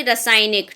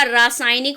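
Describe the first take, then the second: First: रासायनिक opening on a short "ra"; wrong short A. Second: रासायनिक opening on a long "raa"; correct long A. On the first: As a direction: shorten the first vowel of रासायनिक. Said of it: "ना कि रासायनिक". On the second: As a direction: stretch the first vowel of रासायनिक. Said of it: "रासायनिक होता है". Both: Shown as a demonstration.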